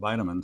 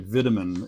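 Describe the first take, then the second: First: It is said with an American vowel pattern. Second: It is said with a British vowel pattern. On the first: "instead of vitamin" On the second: "over there they say vitamin"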